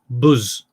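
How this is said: The word is said with a Brummie accent. "they say th- weird things like buzz"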